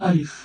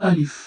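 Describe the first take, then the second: No difference in how they are said.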